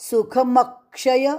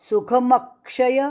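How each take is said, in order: Both takes have the same delivery.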